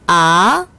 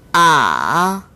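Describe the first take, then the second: First: The pitch rises from mid to high. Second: The pitch dips low and then rises. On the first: "제이성" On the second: "제삼성"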